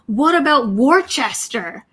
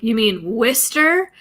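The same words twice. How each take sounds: First: "Worcester" read as WOR-chest-er, all three syllables spelled out; a lightly voiced, eager clerk sounding out "Worcester" letter by letter; clerk's wrong pronunciation. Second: "Worcester" said as WUSS-ter, two short syllables; local pronunciation. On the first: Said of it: "And he goes". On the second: Retold or imitated. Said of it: "we're like".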